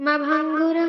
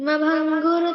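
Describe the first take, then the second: Both takes have the same delivery.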